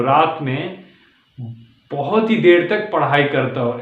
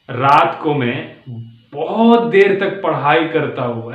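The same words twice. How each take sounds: First: Ups and downs with ही stretched; added tone. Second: बहुत lifted and linked into देर, slow; matched tone. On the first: Teacher adding a tune to the sentence. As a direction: put a lilt on बहुत ही. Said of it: "ऐसे कुछ tone ला दो उसमें". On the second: Teacher showing tone matching on a stuck word. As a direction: carry बहुत in one tune. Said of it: "उसके साथ उसका match कर दो, उसका tone". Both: Shown as a demonstration.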